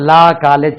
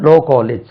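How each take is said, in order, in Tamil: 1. 'law' இல் உள்ள உயிரெழுத்து 'ah' மாதிரி ஒலிக்கும். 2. 'law' இல் உள்ள உயிரெழுத்து 'oh' மாதிரி ஒலிக்கும். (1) "ஆக்சுவலா நம்ம லா காலேஜ் சொல்றோம்" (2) "இது லோ"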